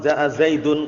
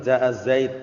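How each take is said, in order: First: The final word ends with an -un sound. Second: The final word ends abruptly on the d. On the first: The speech carries on past this word. The speaker calls it wrong. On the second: The speaker stops at this word. The speaker calls it right. "tapi jaa zaid"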